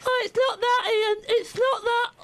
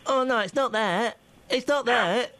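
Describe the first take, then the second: First: Very high, exaggerated imitation of a colleague; mocking co-host's voice. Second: Lightly voiced imitation of a colleague; a hint of the co-host's voice; imitating co-host. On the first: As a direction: squeak it out as a hammed-up co-host. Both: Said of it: "Is that my voice?".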